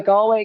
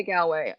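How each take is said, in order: First: "Galway" with a rounded GAWL first syllable; first Galway pronunciation. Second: "Galway" with a flatter GAL first syllable; alternate Galway pronunciation. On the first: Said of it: "Galway Bay Irish pub". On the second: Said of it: "I sometimes say stuff differently". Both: Shown as a demonstration.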